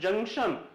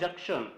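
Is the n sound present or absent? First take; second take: present; absent. First: The n sound is clearly heard. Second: The n sound is left out. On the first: The speaker calls it right. "जो एन है उसका sound यहां पर होता है" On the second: The speaker calls it wrong. "नॉट"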